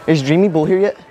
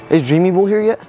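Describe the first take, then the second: No difference in how they are said.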